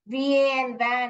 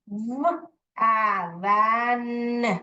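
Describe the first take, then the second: First: Each letter is said by its alphabet name. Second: Each letter is said as its short sound. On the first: The speaker calls it wrong. "आप ऐसे नहीं लिखोगे" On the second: The speaker calls it right. "वैन ऐसे करके पढ़ोगे"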